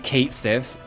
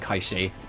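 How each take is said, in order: First: It sounds like 'cat sith', ending in 'th'. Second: It sounds like 'kay-shee', with no 'th'. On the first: This is how the game says it. The speaker calls it wrong. "the game will say Cait Sith" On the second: This respects the word's original language. The speaker calls it right. "out of respect to the Gaelic origin of the word, I will be saying Kaishi"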